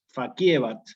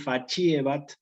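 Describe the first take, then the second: First: The c before i is said the classical way. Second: The c before i is said the ecclesiastical way. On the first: "en clásico" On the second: "en eclesiástico"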